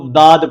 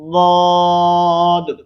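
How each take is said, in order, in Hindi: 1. यह हल्की, सादी d की आवाज़ से शुरू होता है। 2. यह भारी, मोटी d की आवाज़ से शुरू होता है। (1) "लफ्ज वाद को दाद पढ़ते हैं, दाल के साथ मुशाबे करते हैं" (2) "मोटा करते हुए"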